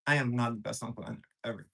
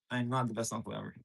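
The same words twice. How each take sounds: First: Said in the usual way. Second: Softer, fast, half to himself; quiet confession. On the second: Real, not acted. Streamer admitting to viewers he's a bad uncle, quiet. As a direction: mumble it like an honest admission. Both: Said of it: "I'll be honest".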